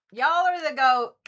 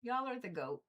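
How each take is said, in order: First: Loud, high proclaiming; excited shout. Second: Said in the usual way. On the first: Acted. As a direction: announce it with gusto.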